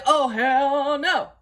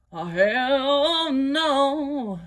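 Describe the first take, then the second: First: "Oh, hell no" stretched slow and a little loud; slow, sassy "Oh, hell no"; drawn-out refusal. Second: "Oh, hell no" sung very slowly and high; a hammed-up, sung "Oh, hell no"; sung refusal. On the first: Retold or imitated. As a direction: drag out each word of "Oh, hell no". Refusing the diaper. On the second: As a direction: sing "Oh, hell no" like a diva's held note.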